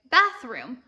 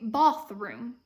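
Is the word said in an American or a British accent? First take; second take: American; British. First: It is said in an American accent. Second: It is said in a British accent. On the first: "in America, we say" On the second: "in Britain, they say"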